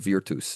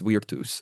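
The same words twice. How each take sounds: First: The word begins with a v sound. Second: The word begins with a w sound.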